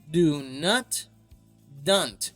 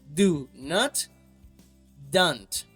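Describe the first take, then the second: No difference in how they are said.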